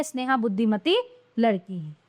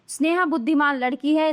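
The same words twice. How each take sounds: First: Low falling close on "लड़की है"; correct example. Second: "बुद्धिमान लड़की है" left open; "बुद्धिमान" read as the faulty form; wrong example. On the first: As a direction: pause after "Buddhimati", then low fall. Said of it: "ये शुद्ध हैं". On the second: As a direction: keep "लड़की है" up in pitch. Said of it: "ये तो अशुद्ध वाक्य हैं". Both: Shown as a demonstration.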